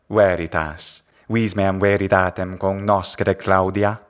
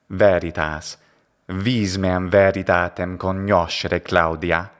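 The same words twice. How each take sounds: First: It uses restored classical Latin pronunciation. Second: It uses Italian-style church Latin pronunciation. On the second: "ecclesiastical pronunciation"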